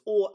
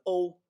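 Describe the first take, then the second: First: Raised "o", close to "aw"; Swedish-style o. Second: Raised "o" gliding like English "oh". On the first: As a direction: hold "o" high as a single Swedish vowel. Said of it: "just the letter o in". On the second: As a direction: say "o" high, closing toward oo. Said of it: "it's pronounced O". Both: Shown as a demonstration.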